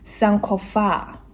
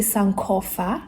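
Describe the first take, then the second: First: The final syllable is drawn out and lengthened. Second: The final syllable is short and clipped. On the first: The speaker calls it right. "I kind of drag the F A" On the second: The speaker calls it wrong. "I don't say sankofa"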